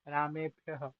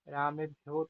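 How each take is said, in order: First: The word ends with a breathy h sound. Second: The word ends on a plain vowel. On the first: The speaker calls it right. "ये विसर्ग का उच्चारण करो साथ में" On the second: The speaker calls it wrong. "भ्यो तो भैया लिखा ही नहीं है"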